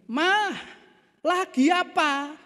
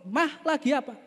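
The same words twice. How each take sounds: First: High, drawn-out call to his wife; raised-voice calling. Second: Higher-pitched call to wife across the room; husband calling his wife. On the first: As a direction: call slowly so she surely hears. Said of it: "lalu ngomong dengan lebih keras". (memanggil istri dengan suara tinggi) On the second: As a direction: call out to see if she hears. (suami memanggil istri dari jauh) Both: Acted.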